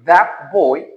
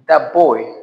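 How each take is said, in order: First: The word that ends in a t sound. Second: The word that ends in a p sound.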